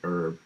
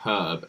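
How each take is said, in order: First: The word is said with an American pronunciation. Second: The word is said with a British pronunciation. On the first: "Americans say herb" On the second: "We say herb"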